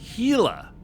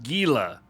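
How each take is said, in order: First: The name begins with an H sound. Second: The name begins with a hard G sound. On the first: The speaker calls it right. "The G is silent" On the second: The speaker calls it wrong. "It is not pronounced Gila"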